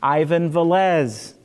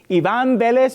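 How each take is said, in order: First: The name has an American English pronunciation. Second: The name has a Spanish pronunciation. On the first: This is how the name is said in the States. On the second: This is the name's original form.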